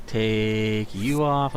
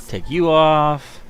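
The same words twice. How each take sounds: First: Slower, softer odd voice; quiet put-on voice. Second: Said in the usual way. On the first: Shown as a demonstration. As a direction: echo it in a silly low voice.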